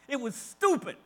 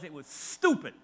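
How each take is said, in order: First: It is said harshly and forcefully. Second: It is said gently and mildly.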